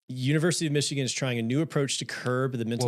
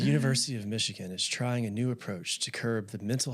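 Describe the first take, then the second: First: It is read with lively, varied pitch. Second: It is read low, quiet and flat. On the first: "way too much inflection in the voice" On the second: "It's got to be very low and quiet"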